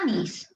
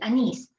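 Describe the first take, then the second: First: The stress falls on the first syllable. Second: The stress falls on the last syllable. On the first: The speaker calls it wrong. "No es anís" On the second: The speaker calls it right. "Aquí está el acento en esta sílaba"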